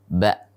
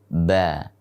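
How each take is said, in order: First: The syllable ends with a sharp, pressed catch. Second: The syllable trails off openly without a catch. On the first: The speaker calls it right. "ba dengan tekanan" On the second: The speaker calls it wrong. "tidak boleh ba"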